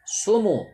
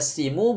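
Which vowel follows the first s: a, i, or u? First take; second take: u; i. First: The first vowel is u. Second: The first vowel is i. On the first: The speaker calls it right. "tetapi dibaca sumu" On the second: The speaker calls it wrong. "Bukan dibaca simu"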